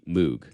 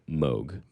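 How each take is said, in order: First: It is said the British way. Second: It is said the North American way. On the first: It is a regional habit, not wrong. "that's just kind of how the Brits say it" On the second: It is how the owner of the name says it. "that's the general pronunciation for like North American dialects"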